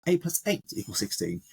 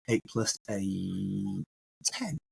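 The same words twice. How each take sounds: First: Said in the usual way. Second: Very slow and soft, drawn out; slowed-down, quiet emphasis demo. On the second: Shown as a demonstration. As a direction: say it slowly, stretching each word. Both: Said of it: "What if I say it slower?".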